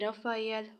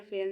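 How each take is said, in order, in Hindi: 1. नाम तीन अक्षरों में कहा जाता है, Ra-fa-yel। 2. नाम दो अक्षरों में कहा जाता है, Ra-fel। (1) "प्रोनाउंस करते हैं रफ़ायल होलनशेड" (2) "जिसे रफ़ेल रफ़ेल में पढ़ रही थी"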